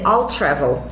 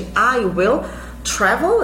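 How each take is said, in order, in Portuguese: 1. I e will são unidas em uma única sílaba. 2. Ambas as palavras, I e will, são pronunciadas por completo. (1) "eu posso dizer I'll travel" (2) "ao invés de I will travel"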